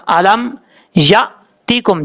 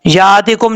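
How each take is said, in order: First: یاتکم cut by a glottal stop after ya; with a jerk. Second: یاتکم with a long, smooth first aa; wrong reading without jerk. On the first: Teacher showing the correct reading, jerked catch in یاتکم. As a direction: stop sharply after the ya in یاتکم, then finish. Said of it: "جھٹکے کے ساتھ". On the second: Teacher showing learners the mistake, smooth unbroken یاتکم. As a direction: glide through یاتکم, no catch after the ya. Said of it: "یاتکم نہیں پڑھنا". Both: Shown as a demonstration.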